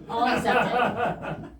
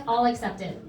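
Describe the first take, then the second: First: Slow, stretched All accepted with a laugh; drawn-out repeat. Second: Said in the usual way. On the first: Shown as a demonstration. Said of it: "repeated drawn out with laugh".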